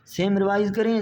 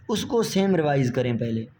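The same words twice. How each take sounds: First: same revise करें repeated higher, with weight on same; teacher stresses same so students revise the same old practice; emphatic repeat. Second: Said in the usual way. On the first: Shown as a demonstration. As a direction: hammer home same revise करें, raised and insistent.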